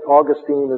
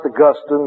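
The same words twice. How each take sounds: First: Augustine is pronounced the way the Florida city is. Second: Augustine is pronounced the way the saint's name is. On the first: It names the place in Florida. "Saint Augustine is in Florida" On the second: It names the theologian. "it's pronounced Augustine"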